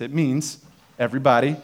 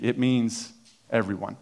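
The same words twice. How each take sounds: First: Said in the usual way. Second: Slow, weighted stress on means; pointed sermon emphasis on means; emphatic. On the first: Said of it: "I'll give you the definition". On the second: Shown as a demonstration. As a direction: lean on means in it means everyone and land everyone. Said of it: "when the Bible says everyone".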